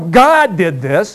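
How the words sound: It sounds firm and passionate. The claim is stated as settled fact. The speaker calls it right. "You say it with a little passion"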